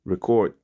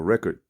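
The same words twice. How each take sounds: First: Record said ri-CORD, stress on the second part; record as re-CORD, the verb. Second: Record said REK-erd, stress on the first part; record as REC-ord, the noun. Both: Shown as a demonstration. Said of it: "however you wanna take it".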